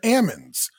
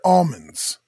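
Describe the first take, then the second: First: The L sound is left out of the word. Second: The L sound is pronounced in the word. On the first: The nuts have been shaken off the tree. "the shaker shook the L out of them" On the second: The nuts are still on the tree. "When they're on the trees"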